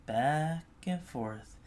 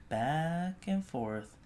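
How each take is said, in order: Both takes have the same delivery.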